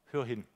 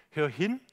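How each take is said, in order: First: Quietly, a gentle murmured "Hör hin"; soft call to listen. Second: Said in the usual way. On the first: Shown as a demonstration. Preacher softly urging the congregation, quiet. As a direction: say "Hör hin" much softer, dropping low.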